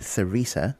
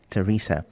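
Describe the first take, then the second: First: The name begins with a 'th' sound. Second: The name begins with a plain 't' sound. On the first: The speaker calls it wrong. "You said Theresa because of the T H" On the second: The speaker calls it right. "the T H is pronounced as T"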